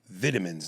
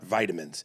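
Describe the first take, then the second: First: It is said with a British pronunciation. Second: It is said with a North American pronunciation. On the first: "We say vitamins" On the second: "the latter is the North American way to say it"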